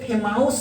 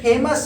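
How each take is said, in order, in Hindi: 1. दूसरे शब्दांश में 'ow' स्वर है। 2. दूसरे शब्दांश में साधारण 'uh' स्वर है। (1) "ये फेमाउस नहीं है" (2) "अपितु ये फेमस है"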